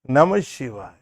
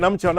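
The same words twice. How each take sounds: First: It is said warmly, with feeling and love. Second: It is said fast and flat, like a machine. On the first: The caller truly loves the one named. The speaker calls it right. "The full love can be reflected" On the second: The words are repeated without any feeling. The speaker calls it wrong. "Just like a um, automatic machine printing thousand prints"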